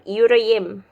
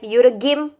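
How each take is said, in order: First: The middle g is silent, lengthening the vowel. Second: The middle g is pronounced as a hard g. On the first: The speaker calls it right. "with soft G" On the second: The speaker calls it wrong. "first time I read it, it's like"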